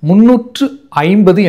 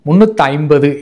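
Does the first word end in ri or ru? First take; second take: ru; ri. First: The first word ends in ru. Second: The first word ends in ri. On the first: This is the proper traditional pronunciation. The speaker calls it right. "முறைப்பட ஒலிப்பதில்லை" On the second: This is how people commonly say it. The speaker calls it wrong. "மாறாக முன்னூற்றி ஐம்பது என்றுதான் கூறுகின்றோம்"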